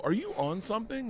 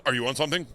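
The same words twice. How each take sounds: First: High rising question; own question. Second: A hint of a mocking echo, a little louder; friend echoing. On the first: Retold or imitated. Friend asks if he's on something, pitched up. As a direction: ask it high and worried. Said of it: "And then at one point I go". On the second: Drugging friend throws the question back, lightly mocking. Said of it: "And he just goes".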